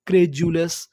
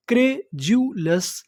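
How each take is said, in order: First: Said in the usual way. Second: "क्रे जू लस" slowly, as three separate beats; broken into syllables. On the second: Shown as a demonstration. Teacher putting the word together, syllable by syllable. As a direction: sound out "क्रे जू लस" with a gap after each part. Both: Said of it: "टुकड़ों में तोड़-तोड़ के पढ़ना है".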